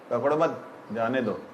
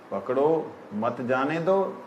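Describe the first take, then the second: First: पकड़ो मत run together, pause, then जाने दो falling; pause after मत. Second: पकड़ो alone with rising end, pause, then slow मत जाने दो; pause after पकड़ो. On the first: Teacher showing the opposite meaning of a command, pause after मत. Contrasts two pausings of one command. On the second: Teacher showing how pausing changes a command, pause after पकड़ो. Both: Shown as a demonstration.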